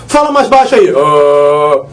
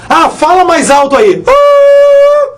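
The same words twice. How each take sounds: First: Low-pitched joke for "mais baixo"; deep low "Ah". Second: A sudden very high squeak on "Ah"; high-pitched joke for "mais alto"; squeaky high "Ah". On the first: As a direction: drop into a very low growl on "Ah". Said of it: "baixo é grave". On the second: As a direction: jump the voice way up for "alto". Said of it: "Porque alto é agudo". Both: Shown as a demonstration.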